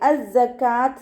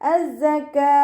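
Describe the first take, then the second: First: The word ends with a t sound. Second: The word ends with a soft h sound. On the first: The speaker calls it wrong. "എന്ന് ഉച്ചരിക്കൂല" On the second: The speaker calls it right. "അതുപോലെ വഖഫ് ചെയ്യാൻ ശ്രദ്ധിക്കുക"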